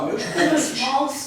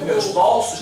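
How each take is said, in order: First: The stressed O in bolsos is closed. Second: The stressed O in bolsos is open. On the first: The speaker calls it right. "continuaram com o O fechado" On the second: The speaker calls it wrong. "Não"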